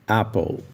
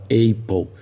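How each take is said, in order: First: The first vowel is a short 'a' sound. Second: The first vowel is a long 'ay' sound. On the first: The speaker calls it right. "mas o correto é apple" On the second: The speaker calls it wrong. "pronuncia com a vogal longa A e fala apple"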